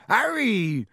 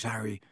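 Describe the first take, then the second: First: Loud, high call of Harry!; Hagrid calling out. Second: Harry. dropped quiet and low; Hagrid softly. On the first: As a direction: shout Harry! across the alley. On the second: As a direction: say Harry. softly, almost under the breath. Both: A narrator's reading. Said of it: "the massive form of Hagrid".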